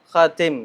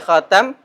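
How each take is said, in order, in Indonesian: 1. Suku kata kedua memiliki vokal 'i'. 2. Suku kata kedua memiliki vokal 'a'. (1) "bisa dibaca kha khatim tadi" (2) "Bisa dibaca khatam"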